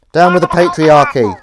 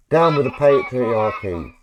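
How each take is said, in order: First: Loud, higher rally shout; loud slogan. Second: Slow, louder proclamation; slow slogan. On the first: Mic too close, a loud protest shout. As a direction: yell it like a protest chant. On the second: Testing the toy with a slogan, slow and proclaiming. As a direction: declaim it slowly like a rally cry. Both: Acted.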